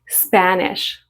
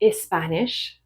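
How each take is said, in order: First: The word starts directly with the S sound. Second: An extra vowel is added before the S. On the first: The speaker calls it right. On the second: The speaker calls it wrong.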